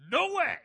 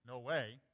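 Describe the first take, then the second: First: Very loud, high shout of refusal; indignant full force. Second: Said in the usual way. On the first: Shown as a demonstration. Preacher shows the force of Peter's refusal, indignant shout. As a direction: blast it out, absolutely refusing. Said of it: "That's the force in which Peter responds". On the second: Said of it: "He doesn't say".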